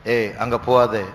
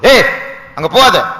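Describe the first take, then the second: First: It is said in a normal, calm tone. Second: It is said in a high, alarmed tone.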